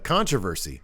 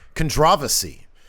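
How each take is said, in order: First: It is said in an ordinary American way. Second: It is said in a British way.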